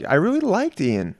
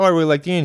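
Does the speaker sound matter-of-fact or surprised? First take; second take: surprised; matter-of-fact. First: It is said in a surprised tone. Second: It is said in a plain, unsurprised tone. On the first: He expected not to like the person. "hint of surprise in his voice" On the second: He simply enjoyed meeting the person. "instead of him being like"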